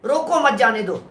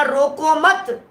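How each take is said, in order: First: रोको, then a pause, then मत जाने दो; pause after रोको. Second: Slow रोको मत, falling firmly on मत; pause after मत. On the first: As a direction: break clearly after रोको and stress मत. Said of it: "कॉमा लग गया". (रोको के बाद ठहराव, मत पर ज़ोर) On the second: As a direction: hold रोको मत together and stop after मत. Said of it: "फिर कॉमा लगा". (धीमे, मत के बाद ठहराव) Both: Shown as a demonstration.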